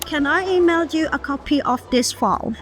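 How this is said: Native-like English accent throughout the sentence. "ใส่ accent จริงๆให้มันดู professional มากขึ้น"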